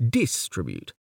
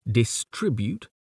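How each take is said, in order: First: "distribute" stressed on DIS; DIS-tribute, front-stressed "distribute"; stress on first syllable. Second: "distribute" stressed on TRIB; dis-TRIB-ute, middle-stressed "distribute"; stress on second syllable. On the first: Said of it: "Do we say distribute". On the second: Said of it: "Do we say". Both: Shown as a demonstration.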